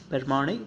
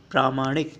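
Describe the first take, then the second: First: प्रमाणिक as per-maa-nik; short first vowel in प्रमाणिक; wrong form. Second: प्रामाणिक as praa-maa-nik; long first vowel in प्रामाणिक; correct form. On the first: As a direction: open प्रमाणिक on a quick "per". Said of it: "प्रमाणिक नहीं होता". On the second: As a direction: open प्रामाणिक on a full "praa". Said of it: "ये होता है प्रामाणिक". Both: Shown as a demonstration.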